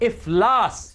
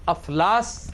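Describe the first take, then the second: First: The word begins with an 'i' vowel. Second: The word begins with an 'a' vowel. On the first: The speaker calls it right. "हालांकि अलिफ के नीचे जेर है" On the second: The speaker calls it wrong. "अफलास गलत है"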